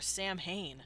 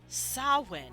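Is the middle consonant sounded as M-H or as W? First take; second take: M-H; W. First: The middle is sounded with M and H. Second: The middle is sounded as a W. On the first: The speaker calls it wrong. "That's not pronounced Samhain" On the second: The speaker calls it right. "That's Samhain. This is a W"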